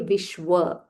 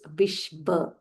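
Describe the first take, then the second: First: The cluster is sounded with a w. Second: The cluster is sounded with a v. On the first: The speaker calls it wrong. "Do not say Vishwa" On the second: The speaker calls it right. "This is Vishva"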